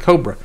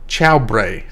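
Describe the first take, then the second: First: The word begins with a hard k sound. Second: The word begins with a ch-like sound. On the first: "it doesn't sound anything like cobra" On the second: "they pronounce it like chobre or something like that"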